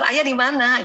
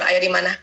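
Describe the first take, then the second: First: It is said in a sweet, cute voice. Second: It is said in a heavy, stern voice.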